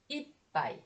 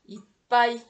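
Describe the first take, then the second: First: The accent is not on the final syllable. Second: The accent falls on the final syllable pai. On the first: One glass of something. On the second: Filled up or full.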